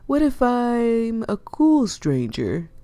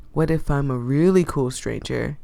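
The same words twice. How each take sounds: First: Higher, slow, teasing question; cheeky slow rising tease; playful coaxing. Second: Said in the usual way. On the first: Acted. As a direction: draw out cool to charm her. Flirty pitch to reluctant fisher.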